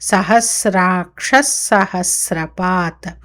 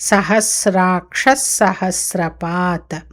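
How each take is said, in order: No difference in how they are said.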